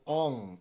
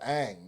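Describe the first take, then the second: First: The vowel is an 'ah' sound, like 'on'. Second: The vowel is an 'a' sound, like 'cat'. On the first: The speaker calls it wrong. "they pronounce it Ong" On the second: The speaker calls it right. "instead of Ang"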